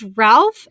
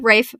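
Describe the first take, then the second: First: The name is said with a short 'a' and 'l'. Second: The name is said with a long 'ay' sound. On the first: The speaker calls it wrong. "No, excuse me" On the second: The speaker calls it right. "it's pronounced Rafe"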